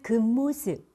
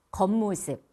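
First: 겉모습 said as 급모습, with EU for EO; wrong EU vowel. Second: 겉모습 with an open EO in the first syllable; correct EO vowel. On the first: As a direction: show the slip 급모습, closing the first vowel. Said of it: "이렇게 하시죠". (겉모습의 어를 으로 바꿔 급모습) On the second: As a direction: model 겉모습, opening the first vowel clearly. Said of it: "어로 발음하셔야 됩니다". (겉모습의 어를 정확하게) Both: Shown as a demonstration.

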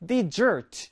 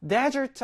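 First: "desert" with the stress at the back, de-SERT, like dessert; stress on second syllable. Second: "desert" with the stress up front, DES-ert; stress on first syllable. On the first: Teacher contrasting two words, "desert" stressed on the second syllable. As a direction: hit the last syllable of "desert". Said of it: "뒤에 강세가 있어요". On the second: Teacher showing learners front stress, "desert" stressed on the first syllable. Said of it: "앞에 강세가 있는데요". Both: Shown as a demonstration.

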